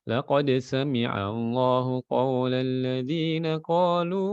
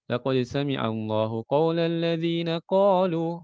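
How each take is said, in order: First: The recitation continues on without stopping after 'qalu'. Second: The recitation stops right after 'qalu'. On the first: The quoted claim belongs to those who said it. The speaker calls it right. "Benar ya" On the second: The claim sounds like the reciter's own words. The speaker calls it wrong.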